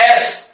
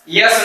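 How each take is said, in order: First: The letter starts straight with a vowel. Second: The letter starts with a "y" glide. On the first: The speaker calls it right. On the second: The speaker calls it wrong.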